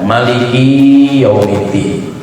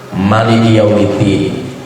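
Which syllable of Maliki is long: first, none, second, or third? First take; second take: third; none. First: The third syllable of Maliki is lengthened. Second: All syllables of Maliki are short. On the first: "kafnya dipanjangkan" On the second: "bisa dipendekkan semua"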